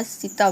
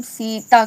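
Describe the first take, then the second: First: सीता as "sita" with a quick short "i"; no stress or length on the first vowel of सीता; unstressed, short vowel. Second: सीता with a long, weighted first "ee"; stressed long vowel. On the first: Teacher saying it without emphasis, short first vowel. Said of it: "normally बोल दें". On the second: Teacher giving the word to be replaced, stressed long vowel. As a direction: stretch the first syllable of सीता. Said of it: "अगर बल ना लगाएं इसमें". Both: Shown as a demonstration.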